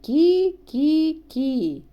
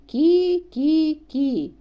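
No difference in how they are said.

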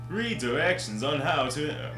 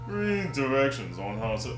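First: It is said in a bright, announcer-style voice. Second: It is said in a deep, growly monster voice. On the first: "more announcer kind of thing" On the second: "That'd be Bowser"

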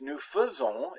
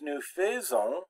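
First: The first vowel of faisons is a weak 'uh'. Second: The first vowel of faisons is a full 'eh'. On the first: The speaker calls it right. "that AI is pronounced like an E without an accent mark" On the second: The speaker calls it wrong. "it's not pronounced nous faisons"

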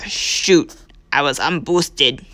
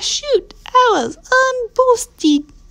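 First: It is said in the speaker's normal voice. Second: It is said in a funny put-on voice.

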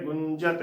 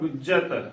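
First: The first syllable has a nasal 'u' vowel. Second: The first syllable has a non-nasal 'u' vowel. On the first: The speaker calls it right. "ਇੱਥੇ ਔਂਕੜ ਵੀ ਲੱਗੀ ਹੋਈ ਹੈ ਤੇ ਟਿੱਪੀ ਵੀ ਲੱਗੀ ਹੋਈ ਹੈ" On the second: The speaker calls it wrong. "ਕੱਲੇ ਔਂਕੜ ਦਾ ਉਚਾਰਨ ਬਣ ਗਿਆ"

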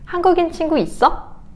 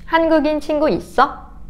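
The two takes are said the same way.

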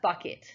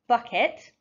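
First: The last syllable has a weaker, reduced vowel. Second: The last syllable has a full, clear e vowel. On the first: The speaker calls it right. "the letter E changes its sound slightly in the end of that word" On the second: The speaker calls it wrong. "if I just sound a et, bucket, it's not quite right"

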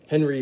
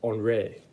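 First: The name is said the American English way. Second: The name is said the French way. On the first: "Henry is the American way of saying Henri" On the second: "in France, they pronounce Henry Henri"

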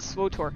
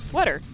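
First: The name is said like 'swotor'. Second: The name is said like 'sweater'. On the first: This is the common pronunciation. "most people pronounce it Swotor" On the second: This is a playful personal pronunciation. "I pronounce it sweater because it's fun. Like a sweater"

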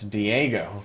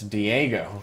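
First: The middle vowel sounds like 'ay'. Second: The same.

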